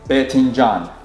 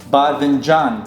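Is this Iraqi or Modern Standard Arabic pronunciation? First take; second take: Iraqi; Standard. First: It is said in the Iraqi dialect. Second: It is said in Modern Standard Arabic.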